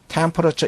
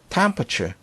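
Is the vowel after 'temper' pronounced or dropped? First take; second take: pronounced; dropped. First: Every syllable is pronounced, including the 'a'. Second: The 'a' syllable is dropped and the word is shortened. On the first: This is how learners usually say it. "우리가 보통 temperature, temperature 이렇게 발음을 하는데요" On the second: This is how native speakers often say it. "요거 A를 발음 잘 안 하는 경우가 많이 있으니까"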